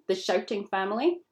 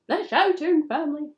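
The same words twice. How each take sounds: First: It is said at a normal speaking volume. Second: It is shouted loudly.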